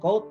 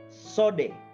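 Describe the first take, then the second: First: The word begins with a k sound. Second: The word begins with an s sound. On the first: The speaker calls it wrong. "bukan code" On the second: The speaker calls it right. "bacanya ... sode"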